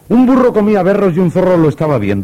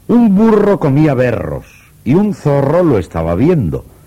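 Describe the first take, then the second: First: It is spoken at a noticeably faster pace. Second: It is spoken at a slower, easier pace.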